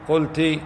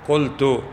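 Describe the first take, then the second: First: The word ends in a short i vowel. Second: The word ends in a short u vowel. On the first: A female listener said it. "المخاطبة يقال لها" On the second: The speaker himself said it. "المتكلم يقول قلت"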